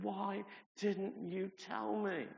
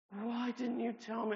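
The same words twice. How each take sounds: First: Slow, higher, pained question; upset plea. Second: Much higher, louder, slower cry; anguished repeat. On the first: Andrea asking him why he stayed silent, slow and upset. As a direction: plead with him in disbelief. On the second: Andrea repeating her reproach, higher and more anguished. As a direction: press harder the second time. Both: Retold or imitated. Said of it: "she was so upset with me".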